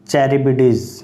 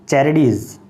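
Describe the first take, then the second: First: A 'b' sound is heard in the middle. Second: No 'b' sound is heard in the middle.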